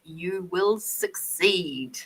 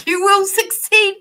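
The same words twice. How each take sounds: First: Slow, low, weighty prophecy; slow solemn promise. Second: High, loud, over-the-top proclamation; hammed-up cheer. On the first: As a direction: let each word land slowly like an oracle. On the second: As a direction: shout the promise like a cheerleader. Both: Shown as a demonstration.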